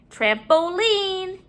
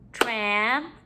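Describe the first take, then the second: First: Said in the usual way. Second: Syllable by syllable. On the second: Shown as a demonstration. Teacher counting syllables in the word, broken up. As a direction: break "Trampoline" apart with long pauses. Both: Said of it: "break up our syllables".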